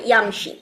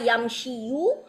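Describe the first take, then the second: First: The word ends on a bare 'i' sound. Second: The word ends with a 'yu' syllable. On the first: The speaker calls it right. "ওখানে সুকুন দিয়ে শেষ করে ইয়ামশি" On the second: The speaker calls it wrong. "ইউ এরকম উচ্চারণটা তাদের কাছে বিউটিফুল লাগে না"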